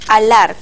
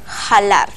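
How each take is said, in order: First: The word begins directly with a vowel sound. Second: The word begins with a breathy j sound. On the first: This is the form used in current Spanish. "En el español actual es alar con H" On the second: This is an old-fashioned form. "el uso arcaizante se resiste a desaparecer"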